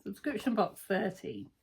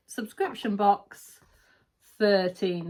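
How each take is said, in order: First: Softer, offhand second reading of the name; quiet repeat. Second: Slow, drawn-out reveal of the box name; slow announcement. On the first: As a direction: say it again under your breath. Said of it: "is there, for fabric?". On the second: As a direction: announce it slowly like a title. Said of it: "There's no spoilers on this". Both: Shown as a demonstration.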